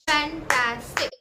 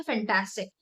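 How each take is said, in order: First: "fantastic" slowly as फैं, टा, stick; three separate, slow syllables in fantastic. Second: Said in the usual way. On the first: Shown as a demonstration. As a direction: break fantastic into three clapped beats. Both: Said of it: "मैंने कितने बार clap किया".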